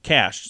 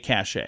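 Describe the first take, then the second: First: It is said as one syllable, like cash. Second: It is said as two syllables, like cachet. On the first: The speaker calls it right. "should be said just like cash" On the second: The speaker calls it wrong. "you don't say cachet"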